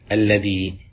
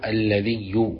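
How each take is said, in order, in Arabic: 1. تنتهي الكلمة بالكسرة الطويلة. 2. تنتهي الكلمة بصوت الياء المشددة. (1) "اللغة العالية وهي مستعملة في كتاب الله" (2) "بتشديد الياء"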